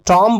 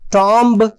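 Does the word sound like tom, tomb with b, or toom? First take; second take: tom; tomb with b. First: Short o vowel with the final b silent. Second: Short o vowel with the final b pronounced. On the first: "कॉम की तरह से टॉम पढ़ा जाए? नहीं" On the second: "टॉम्ब नहीं"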